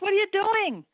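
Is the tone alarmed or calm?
alarmed. It sounds frantic and alarmed. The adult reacts with alarm. The speaker calls it wrong. "We're running, we're frantic, we'd be inclined to say"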